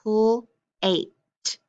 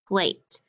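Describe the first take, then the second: First: Pl-ate sounded out slowly as two chunks; segmented word. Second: Said in the usual way. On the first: Shown as a demonstration. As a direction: say pl-ate split, the pl sound then ate. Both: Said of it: "So I'm gonna say pl-ate".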